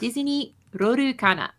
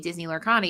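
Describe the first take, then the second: First: The name is said with Japanese-style syllables. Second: The name is said with plain English sounds. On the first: The speaker calls it right. "that's how they say Disney" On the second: The speaker calls it wrong. "you sound foolish because you can't say Disney Lorcana"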